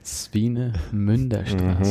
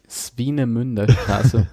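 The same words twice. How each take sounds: First: It is said in a sultry, erotic way. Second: It is said in a plain, ordinary way.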